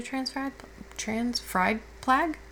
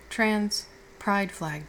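First: PRIDE fumbled into "fried", slowly questioning; sleepy tongue slip. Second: PRIDE said slowly and clearly with a p; careful self-correction. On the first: Half-awake partner ordering pins, tongue-tied on "fried". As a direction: trip over "fried" for pride, drawing it out, puzzled. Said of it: "I haven't been awake long enough". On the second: Half-awake partner correcting their own slip, slow and careful on "pride". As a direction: spell out "pride" word by word, deliberately. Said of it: "my brain to put words". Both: Real, not acted.

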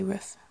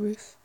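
First: "roof" with a short vowel, as in "book"; Welsh short vowel. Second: Said in the usual way. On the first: Shown as a demonstration. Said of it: "They say roof in Wales?". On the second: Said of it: "instead of roof".

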